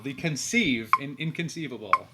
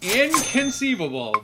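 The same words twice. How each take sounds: First: Said in the usual way. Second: Drawn-out high inconceivable; Vizzini inconceivable. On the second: Retold or imitated. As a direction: exclaim it slowly like Vizzini. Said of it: "so I think you're going inconceivable".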